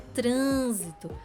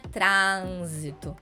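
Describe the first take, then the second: First: The stressed vowel is closed. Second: The stressed vowel is open. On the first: The speaker calls it right. "É uma pronúncia mais fechada" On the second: The speaker calls it wrong. "não é trânsito"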